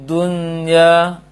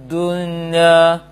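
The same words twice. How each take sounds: No difference in how they are said.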